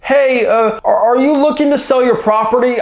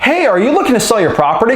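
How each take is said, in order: First: It is said hesitantly with fillers and restarts. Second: It is said smoothly and confidently without hesitation. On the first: The caller is unsure of themselves. The speaker calls it wrong. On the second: The caller knows what they are talking about. The speaker calls it right.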